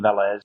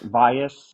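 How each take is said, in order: First: The name is said the English way. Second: The name is said the Spanish way. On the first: "if you said the name in English or Americanized it" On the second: "I pronounce it Valles"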